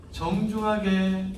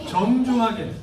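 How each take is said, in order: First: 정중하게 said very slowly, stretched; drawn-out 정중하게. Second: 정중하게 lifted, louder and stressed. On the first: Pastor driving home the point, 정중하게 stretched slow. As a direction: spell out 정중하게 slowly syllable by syllable. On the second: Pastor urging parents, 정중하게 raised and louder. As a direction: hit 정중하게 firmly. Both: Shown as a demonstration.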